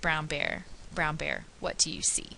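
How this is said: Pauses fall between natural word groups. The speaker calls it right. "a fluent reader would read the same line as"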